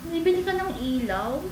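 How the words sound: It sounds sad and disappointed.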